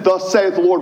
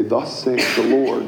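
First: Higher, louder proclamation; proclaiming. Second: Said in the usual way. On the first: Shown as a demonstration. Pastor to a penitent, proclaiming boldly. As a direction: declare it boldly. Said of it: "I need to be able to say". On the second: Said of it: "look McLaren in the eye and say".

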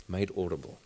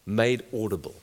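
First: Repeated much softer and lower, almost to himself; soft echo. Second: Said in the usual way. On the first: Shown as a demonstration. Preacher echoing the phrase to the congregation, hushed and low. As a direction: let it sink in, quietly.

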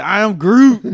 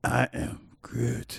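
First: Loud, high, laughing Groot line; laughing Groot shout. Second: Sinister Groot. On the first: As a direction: shout it while cracking up. Joking Groot horror movie line. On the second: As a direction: say it like a lurking monster. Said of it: "So you doing it". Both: Pretend.

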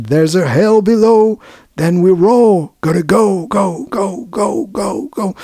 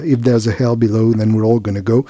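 First: Preaching. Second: Said in the usual way. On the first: Retold or imitated. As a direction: proclaim it like a gospel preacher. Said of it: "qui prêche". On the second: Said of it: "Donc s'il y a un enfer en dessous".

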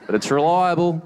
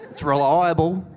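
First: Mocking claim. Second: Proud claim. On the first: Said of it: "It's not cheap". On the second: Retold or imitated. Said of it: "he's like".

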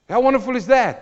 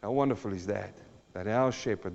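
First: High, loud, joyful cry; exultant exclamation. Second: Hushed wonder. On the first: Preacher exclaiming to the congregation, high and loud. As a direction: shout your wonder to the church. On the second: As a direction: say it almost to yourself. Hushed reflection after verse. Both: Acted.

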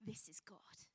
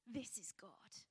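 First: Whisper. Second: Softer, drawn-out whisper; awed hush, slowed down; slower awed whisper. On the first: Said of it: "hushed awed quote". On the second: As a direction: let it fall to a breath. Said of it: "repeated hushed, slower". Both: Acted.

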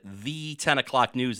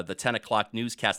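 First: "the" said as THEE, held; held long-E "the". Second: Said in the usual way. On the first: Retold or imitated. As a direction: imitate a newsman holding "the" as "thee". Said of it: "hold that vowel sound". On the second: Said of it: "They used to call it".

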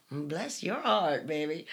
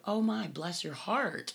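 First: Sarcastic Southern bless your heart. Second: Sweet Southern bless your heart. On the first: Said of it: "Or, you know". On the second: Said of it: "you can actually go". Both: Shown as a demonstration.

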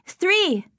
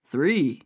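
First: High, loud gleeful shout; excited child. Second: Low, doubtful echo; surprised question. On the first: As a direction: cheer it like a greedy little girl. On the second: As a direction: repeat it, eyebrows raised. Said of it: "brows rose". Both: A narrator's reading.

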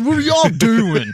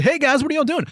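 First: Mock cheery greeting. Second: High sing-song imitation of a kid on rollerblades; mock cheery greeting. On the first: First take of greeting. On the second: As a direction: ham up a bright hey guys.

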